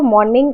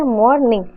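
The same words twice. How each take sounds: First: Said in the usual way. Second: मॉर्निंग split into two beats; syllable by syllable. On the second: Shown as a demonstration. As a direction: say मॉर्निंग as मॉर-निंग, with a gap between the syllables. (मॉर्निंग को दो हिस्सों में तोड़कर) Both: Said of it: "मॉर्निंग का दो है".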